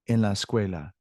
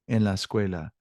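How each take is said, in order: Both takes have the same delivery.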